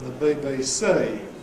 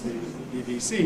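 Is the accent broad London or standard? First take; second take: broad London; standard. First: The vowels glide strongly in a broad London accent. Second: The vowels are plain in a standard accent. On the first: "in London, this is very much exaggerated" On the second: "It's the B B C to you"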